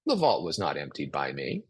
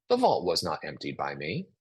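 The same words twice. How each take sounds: First: Low, calm and soothing, no blame; calm, defusing. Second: Calm, defused. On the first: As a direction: say "the vault was not emptied by me" calmly to defuse it. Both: Shown as a demonstration. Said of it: "This really diffuses a situation".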